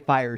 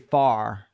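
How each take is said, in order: First: The word is said with its R sound. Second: The word is said without its R sound. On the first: "she wouldn't say fire" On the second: "She'd say far. ... didn't pronounce most of her R's"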